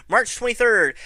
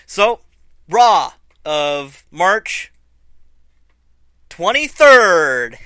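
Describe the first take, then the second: First: Said in the usual way. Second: Slow, loud, drawn-out date reveal; big booming slow build on the date; dramatic announcement. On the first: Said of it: "laughs Hey". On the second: Acted.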